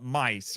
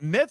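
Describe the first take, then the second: First: The name ends with an s sound. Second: The name ends with a th sound. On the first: The speaker calls it right. "I think it's pronounced Mice" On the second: The speaker calls it wrong. "It's spelled Myth"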